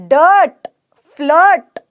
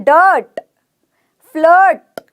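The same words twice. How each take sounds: Both takes have the same delivery.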